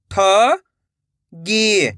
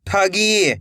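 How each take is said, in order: First: "ठगी" split with a pause; rising ठ, pause, then गी in "ठगी"; syllable by syllable. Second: Said in the usual way. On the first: Shown as a demonstration. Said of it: "एक एक अक्षर का उच्चारण". ("ठगी" को तोड़कर, ठ... गी) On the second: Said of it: "तो मिलके बन जाएगा".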